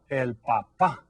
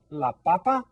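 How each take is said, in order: First: "papá" with a strong final syllable, pa-PÁ; teacher's clear pa-PÁ in "papá", second syllable stressed. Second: "papa" with a strong opening syllable, PA-pa; teacher's clear PA-pa in "papa", first syllable stressed. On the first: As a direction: hold back, then hit the last PÁ of "papá". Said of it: "stress the second syllable". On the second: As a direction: lean on the first PA of "papa", as in potato. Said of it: "stress that first syllable". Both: Shown as a demonstration.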